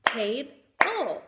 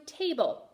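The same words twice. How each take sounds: First: "Table" broken into tabe, pause, ull; teacher sounding out both syllables of "Table"; split into syllables. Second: Said in the usual way. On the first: Shown as a demonstration. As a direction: say "Table" in two separate beats. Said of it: "That has two". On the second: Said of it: "I want you to do".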